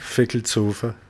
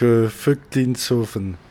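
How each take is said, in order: First: The name is said in a shorter Alsatian form. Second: The name is said in a longer standard form.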